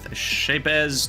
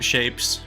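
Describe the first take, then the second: First: The name ends with a buzzing Z sound. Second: The name ends with a hissing S sound. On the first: The speaker calls it right. "I like the Z, so I'm going to pronounce the Z" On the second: The speaker calls it wrong. "some people pronounce it Shapes, but that feels so boring"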